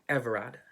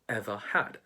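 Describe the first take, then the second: First: The h sound at the start of 'had' is dropped. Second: The h sound at the start of 'had' is pronounced. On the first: "H is not pronounced" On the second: "instead of"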